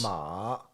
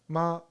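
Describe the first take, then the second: First: The pitch dips down and then rises. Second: The syllable is said with a light neutral tone. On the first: It means horse. "So you go down, you go up" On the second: It means mom. "it's a new neutral tone"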